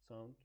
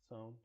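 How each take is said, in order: The two takes are said the same way.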